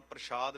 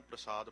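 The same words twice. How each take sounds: First: ਪ੍ਰਸ਼ਾਦ said with a sh sound; ਪ੍ਰਸ਼ਾਦ with "sh" as in prashad; wrong reading shown. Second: ਪ੍ਰਸਾਦ said with a plain s sound; ਪ੍ਰਸਾਦ with "s" as in prasad, not sh; correct reading shown. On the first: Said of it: "ਇਹਨੂੰ ਪ੍ਰਸ਼ਾਦ ਨਹੀਂ ਪੜ੍ਹਨਾ". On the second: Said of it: "ਇਹਨੂੰ ਪ੍ਰਸਾਦ ਪੜ੍ਹਨਾ ਹੈ". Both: Shown as a demonstration.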